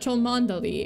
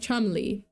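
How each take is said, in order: First: The name is said in full, as spelled. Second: The name is said in a short, two-syllable form. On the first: The speaker calls it wrong. "Cholmondeley is not Cholmondeley" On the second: The speaker calls it right. "it's pronounced Chumley"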